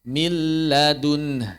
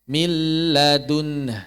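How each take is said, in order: No difference in how they are said.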